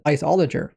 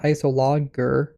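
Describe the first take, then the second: First: The first syllable sounds like 'ice'. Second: The first syllable sounds like 'iss'. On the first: The speaker calls it right. "but they pronounced it Iceologer" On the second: The speaker calls it wrong. "I was pronouncing it wrong. I was pronouncing it Isologer"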